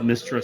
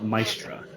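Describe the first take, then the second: First: The first syllable sounds like 'mist'. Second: The first syllable does not sound like 'mist'. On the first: This is the speaker's own pronunciation. "I call it Mistra" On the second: Other people say it this way. "Some people call it Maestra"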